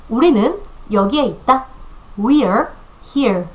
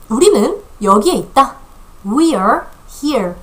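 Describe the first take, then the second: Both takes have the same delivery.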